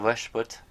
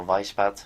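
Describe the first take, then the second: First: "Weishaupt" with a short first vowel and "put" ending; alternative name pronunciation. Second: "Weishaupt" with an "eye" vowel, then a "pat" ending; alternative name pronunciation. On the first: Naming the Illuminati founder one way, "Weishaupt" as VESH-put. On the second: Naming the Illuminati founder another way, "Weishaupt" as VYSH-pat. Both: Shown as a demonstration. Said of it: "however you say his name".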